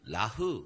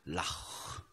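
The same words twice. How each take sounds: First: The final sound is a soft, plain h. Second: The final sound is a raspy throat sound. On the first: The speaker calls it wrong. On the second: The speaker calls it right.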